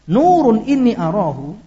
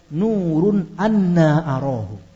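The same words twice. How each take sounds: First: "Nurun inni arahu", plain first reading. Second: Slow "Nurun anna arahu", long drawn anna; "Nurun anna arahu" with anna stretched; second reading. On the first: Preacher showing the first reading, recited. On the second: Preacher showing the second reading, slowly drawn. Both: Shown as a demonstration. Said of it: "Dan bacaan kedua".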